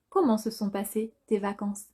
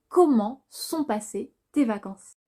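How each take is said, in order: First: The word 'se' is pronounced fully and clearly. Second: The word 'se' is reduced into 'sont'.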